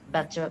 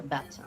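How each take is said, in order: First: Better with the final R sounded; American R. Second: Better ending in "uh", R silent; British R-less ending. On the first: Student contrasting accents, better with R. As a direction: keep the R at the end of better. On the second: Student contrasting accents, better without R. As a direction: drop the final R of better. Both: Shown as a demonstration. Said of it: "these are the main differences".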